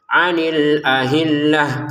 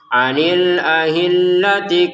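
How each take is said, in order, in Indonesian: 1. Kata itu berakhir dengan bunyi h. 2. Kata itu berakhir dengan bunyi ti. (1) "Taknya ini kita baca ha karena berhenti ya" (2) "Kalau disambungkan"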